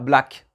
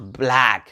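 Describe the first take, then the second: First: The A vowel is kept short. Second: The A vowel is drawn out long. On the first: The speaker calls it wrong. "et non pas" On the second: The speaker calls it right. "c'est un long A"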